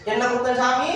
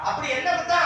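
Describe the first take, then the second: First: Measured, deferential question to the god; respectful asking. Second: Disrespectful wrong way of asking; too blunt question. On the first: Priest shows boy how to ask the god, respectfully. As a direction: model the polite way to ask. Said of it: "அப்படின்னு கேளு". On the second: Priest mimics boy's wrong question to the god, bluntly. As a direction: bluntly quote "என்ன குத்தம்". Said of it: "அப்படி சாமி கேட்க கூடாது". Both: Shown as a demonstration.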